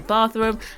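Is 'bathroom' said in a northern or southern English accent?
southern. It is said in a southern English accent. "as a Londoner, I say bathroom"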